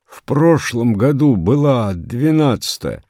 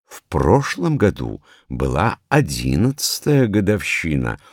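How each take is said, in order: First: Raised, high-pitched protest in a strained voice; hoarse protest. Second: Measured correction in an instructive tone; mildly didactic. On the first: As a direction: protest that it was ДВЕНАДЦАТАЯ, voice pushed high. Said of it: "сказал он хрипло". (хрипло, высоко возражая) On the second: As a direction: correct them patiently, like a teacher. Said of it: "наставительно сказала заведующая". (слегка наставительно, поправляя) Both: A narrator's reading.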